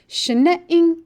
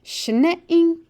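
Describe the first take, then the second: First: "Shine-ing" pitched up and louder for repetition; a clear call for them to echo; model word again. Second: "Schneeing" said higher and louder, clearly marked; model word. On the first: Teacher repeats the word for students, higher and louder. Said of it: "one more time". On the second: Teacher gives a word for the class to repeat, higher and louder. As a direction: say it out for them to echo. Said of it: "Repeat this word after me". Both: Shown as a demonstration.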